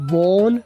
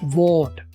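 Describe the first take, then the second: First: The final t sound is dropped. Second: The final t sound is pronounced. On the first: "वोन बोलो वीक reduction वाला" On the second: "तीसरा तरीका strong reduction वाला"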